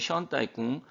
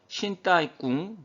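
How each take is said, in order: First: The first syllable is pronounced 'shen'. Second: The first syllable is pronounced 'shin'. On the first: The speaker calls it right. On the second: The speaker calls it wrong.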